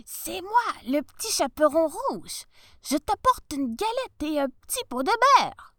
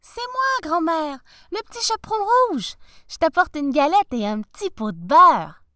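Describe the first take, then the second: First: Wolf faking a high little voice; tiny voice. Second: Put-on little girl voice. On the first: Acted. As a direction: squeak it sweetly, pretending to be the girl. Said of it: "dit d'une toute petite voix". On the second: Girl answers at the door.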